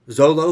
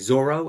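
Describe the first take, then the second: First: The middle consonant is an L sound. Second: The middle consonant is an R sound. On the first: The speaker calls it wrong. "who I've been calling him Zolo" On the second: The speaker calls it right. "turns out is actually really Zoro"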